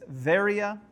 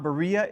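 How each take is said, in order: First: The name begins with a V sound. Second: The name begins with a B sound. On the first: The speaker calls it right. "it's Veria" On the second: The speaker calls it wrong. "it's not Berea"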